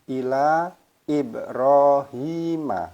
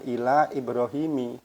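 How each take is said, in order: First: The name ends with an 'a' vowel. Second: The name ends with an 'i' vowel. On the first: The speaker calls it right. "Maka dibaca Ibrahima" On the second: The speaker calls it wrong. "bukan ila Ibrahimi, tidak"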